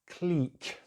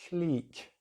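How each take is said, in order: First: The vowel is a long 'ee' sound. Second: The same.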